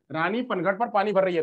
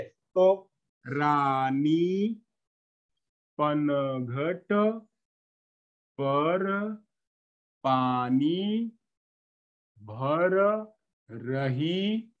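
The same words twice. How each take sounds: First: Said in the usual way. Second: Very slow and lower, words stretched with pauses; slow halting child reading. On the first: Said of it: "statement लिखा हुआ है". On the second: Shown as a demonstration. Teacher imitating a girl reading slowly, halting and stretched. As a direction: drag each word out like a child sounding it out. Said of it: "रुक रुक करके पढ़ रही है, धीरे धीरे".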